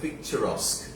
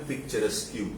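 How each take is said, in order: First: The word ends in a plain 'sk' sound. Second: The word ends in an added 'kyoo' sound. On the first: The speaker calls it right. "এটা উচ্চারণ হবে পিকচারস্ক" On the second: The speaker calls it wrong. "কিন্তু দেখে মনে হবে পিকচারেস্কিউ"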